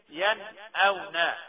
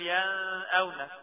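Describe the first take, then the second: First: The n sound is pronounced clearly before the glottal stop. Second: The n sound is blended into the glottal stop. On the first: The speaker calls it right. "ين أو نا تتقرا كده" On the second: The speaker calls it wrong. "ما ينفعش نقول ين أو نا"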